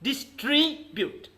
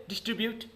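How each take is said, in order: First: Slow "distribute", DIS... TRI... BUTE; syllable-by-syllable demo. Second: Said in the usual way. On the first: Shown as a demonstration. Teacher leading a repeat, "distribute" slowly in three pieces. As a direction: draw out each syllable of "distribute". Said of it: "halfly you have to pronounce". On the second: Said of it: "Say distribute".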